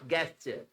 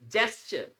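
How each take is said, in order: First: The word begins with a hard 'g' sound. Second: The word begins with a 'j' sound. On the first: The speaker calls it wrong. "Not गेस्चर" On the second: The speaker calls it right. "It's जेस्चर"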